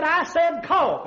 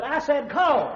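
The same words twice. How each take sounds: First: Slow, loud insistence; slow, loud command. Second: Firm command. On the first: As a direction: drag out each word, louder. Doctor insisting, louder and slower. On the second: Doctor insisting more firmly. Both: Acted.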